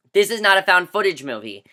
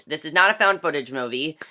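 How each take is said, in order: First: Firm fall after a stressed This. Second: Said in the usual way. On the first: Shown as a demonstration. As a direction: hit the word This firmly.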